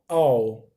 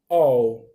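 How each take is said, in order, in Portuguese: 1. Uma sílaba curta é dita, com I e will juntos. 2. Uma sílaba curta é dita, com I e will juntos.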